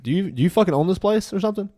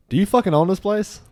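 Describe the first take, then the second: First: Higher, louder imitated angry challenge; mad retort. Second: Higher, louder mock angry snap at the bartender; angry retort. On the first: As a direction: demand it like you own the fight. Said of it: "Sean is so mad". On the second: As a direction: throw it back at him, furious. Sean snaps at bartender, retold.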